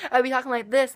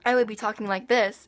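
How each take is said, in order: First: Higher-pitched put-on Southern accent; fake Southern accent. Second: Said in the usual way. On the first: Shown as a demonstration. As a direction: slip into a fake Southern twang. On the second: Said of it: "I would go back to normal".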